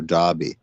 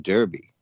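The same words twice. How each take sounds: First: Derby said "Darby", the British way; British pronunciation. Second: Said in the usual way. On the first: Shown as a demonstration. American quoting how the British guest says it, Derby as "Darby". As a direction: say Derby with an "ah" in the first syllable. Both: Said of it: "as you say".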